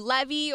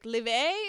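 First: The name is said with English-style sounds. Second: The name is said with French-style sounds. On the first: "Or Levy" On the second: "he's French, so it's like Levé"

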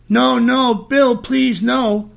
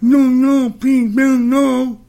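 First: It is said in a normal voice. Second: It imitates the speech of a deaf woman.

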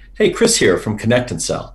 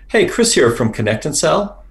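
First: The pitch falls at the end of the phrase. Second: The pitch rises at the end of the phrase. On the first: The speaker calls it right. "It should have been" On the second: The speaker calls it wrong. "your voice went up and it should have gone down"

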